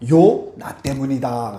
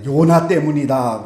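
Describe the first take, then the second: First: There is a break after 요. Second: It is said without a break after 요.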